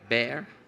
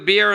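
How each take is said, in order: First: It is said in a standard accent. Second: It is said in a Brooklyn accent.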